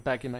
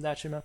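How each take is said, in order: First: The name is pronounced the classical Latin way. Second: The name is pronounced the ordinary modern way.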